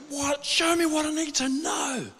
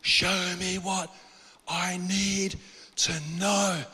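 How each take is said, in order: First: High, strained cry without full volume; imitated screaming plea. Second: Slow drawn-out plea. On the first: Man in his old house pleading with God, imitated scream. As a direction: cry out desperately, pitched way up and held back in level. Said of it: "I'm screaming at God". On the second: Retold or imitated.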